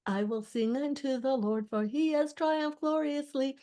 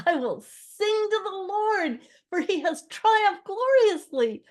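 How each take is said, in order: First: Unaccompanied sung praise, rising higher; singing out. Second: Very high, slow, loud proclamation; voice carrying far. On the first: Miriam with her tambourine praising the Lord, singing out. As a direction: sing it out on sustained notes. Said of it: "shaking it and singing out". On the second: Moses praising God over the drowned army, exultant carrying cry. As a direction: cry it out exultantly, stretching the words. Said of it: "Moses' voice carried on the wind". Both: A narrator's reading.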